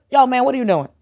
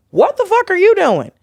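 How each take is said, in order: First: Higher-pitched but casual call-out; toned-down challenge. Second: High-pitched, incredulous outburst; inner outrage. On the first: What she really said to the comic, milder challenge. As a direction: question him lightly, without the outburst. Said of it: "'cause I just went". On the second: Retelling her reaction to the tactless comic, high-pitched outrage. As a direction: let the disbelief leap right up in pitch. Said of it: "like, in my brain". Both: Retold or imitated.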